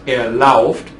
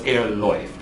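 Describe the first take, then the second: First: The verb's vowel sounds like 'ow'. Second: The verb's vowel sounds like 'oy'. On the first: The speaker calls it wrong. "It's not er lauft" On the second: The speaker calls it right. "We have to change that vowel"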